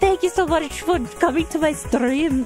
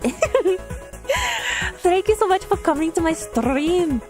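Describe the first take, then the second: First: It is said in the speaker's usual accent. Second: It is said in a thick Irish accent.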